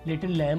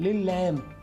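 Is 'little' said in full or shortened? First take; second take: full; shortened. First: 'Little' is said in full with both syllables. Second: 'Little' is shortened and merged into 'lil'.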